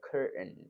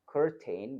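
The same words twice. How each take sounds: First: The t sound is held in the throat. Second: The t sound is clearly released.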